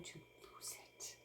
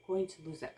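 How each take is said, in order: First: Slow, unvoiced whisper to herself; slow whispered confession. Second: Said in the usual way. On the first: Real, not acted. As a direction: breathe it out, barely voiced. Stressed, muttering about losing it.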